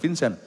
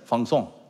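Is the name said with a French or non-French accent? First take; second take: non-French; French. First: The name is said without a French accent. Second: The name is said with a French accent. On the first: The speaker calls it wrong. "Vincent itu bukan Vincent" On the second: The speaker calls it right. "Orang orang Prancis"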